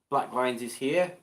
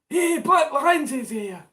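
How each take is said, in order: First: It is said in his ordinary own voice. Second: It is said in a put-on Norman voice.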